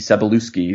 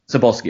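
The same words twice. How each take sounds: First: The name is said with extra syllables. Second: The name is said without the extra syllables. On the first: The speaker calls it wrong. "I'm probably butchering his last name" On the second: The speaker calls it right. "that sounds better. I was adding some syllables"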